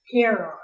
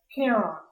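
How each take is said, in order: First: CHARON modelled loudly with a hard K start, KAIR-on; loud, instructive "Charon", stressed on the first syllable; correct pronunciation. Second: Said in the usual way. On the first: A narrator's reading. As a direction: say Charon as KAIR-on, louder, as teacher. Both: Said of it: "Say it with me".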